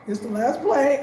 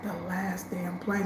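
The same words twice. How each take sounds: First: Said in the usual way. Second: Softer, slow, sinking; hushed dread. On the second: Retold or imitated. Realizing she is stranded, slow hushed dread. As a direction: let the words drop as it sinks in.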